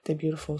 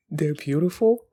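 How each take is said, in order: First: Said in the usual way. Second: Laughing disbelief, "beautiful" rising and louder; mocking echo with a laugh and rising "beautiful"; incredulous. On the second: Real, not acted. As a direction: scoff at the line as if it makes no sense.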